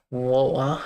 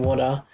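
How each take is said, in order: First: "water" with the T dropped, like "wo-ah"; troll British pronunciation. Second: Said in the usual way. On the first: Shown as a demonstration. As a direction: say "water" British-style, swallowing the middle T. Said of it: "the troll way that people do". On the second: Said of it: "that way of saying water".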